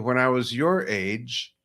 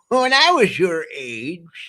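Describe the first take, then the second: First: It is said in a plain, natural voice. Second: It is said in a put-on character voice. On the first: "in a normal voice like that" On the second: "I have to say, hey"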